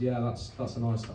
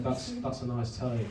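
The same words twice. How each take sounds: First: Half-hearted Scouse attempt; Liverpool accent. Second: Said in the usual way. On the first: Dealer eyeing the student's telly, half-hearted Liverpool accent. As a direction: start a Liverpool accent and give it up. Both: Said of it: "I'm not doing the accent".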